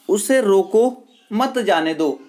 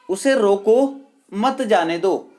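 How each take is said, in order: First: There is a pause after रोको. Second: There is a pause after रोको.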